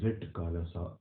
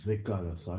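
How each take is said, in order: First: A t sound is heard before the k. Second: No t sound is heard before the k. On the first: The speaker calls it wrong. "not Zitkalasa" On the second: The speaker calls it right. "we pronounce it as Zikalasa"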